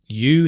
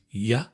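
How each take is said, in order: First: The word has a full vowel. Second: The word is reduced with a weak vowel.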